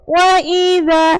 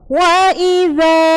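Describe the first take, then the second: First: The long vowel is cut too short. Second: The long vowel is held for full length. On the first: The speaker calls it wrong. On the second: The speaker calls it right.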